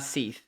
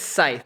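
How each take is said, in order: First: The word is said with an 'ee' vowel. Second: The word is said with an 'eye' vowel. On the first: The speaker calls it wrong. "not seath" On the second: The speaker calls it right. "I think it's scythe"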